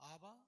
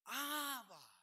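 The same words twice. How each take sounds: First: The word is said calmly, without crying out. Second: The word is cried out with desperate urgency. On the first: The speaker calls it wrong. "you don't say" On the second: The speaker calls it right. "You say, Abba. You're calling out"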